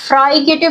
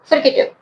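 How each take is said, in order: First: The first syllable sounds like 'fry'. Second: The first syllable sounds like 'fri' with short i. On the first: The speaker calls it wrong. "अब ये फ्राइकेटिव भी इसको pronounce नहीं करना" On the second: The speaker calls it right. "इसको क्या कहना है, फ्रिकेटिव"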